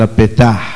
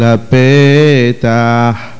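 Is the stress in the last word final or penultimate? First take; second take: final; penultimate. First: The stress falls on the final syllable. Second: The stress falls on the penultimate syllable. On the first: The speaker calls it wrong. "לא אומרים ופסח השם על הפתח" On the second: The speaker calls it right. "אלא ופסח השם על הפתח"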